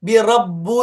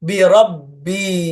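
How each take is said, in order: First: The word ends with an 'oo' vowel. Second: The word ends with an 'ee' vowel. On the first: The speaker calls it wrong. "ബിറബ്ബു എന്ന് പറയാൻ പാടില്ല" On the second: The speaker calls it right. "ബിറബ്ബി അങ്ങനെ തന്നെ പറയണം"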